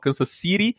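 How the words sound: It is said with an American accent.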